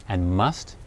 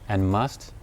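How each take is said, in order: No difference in how they are said.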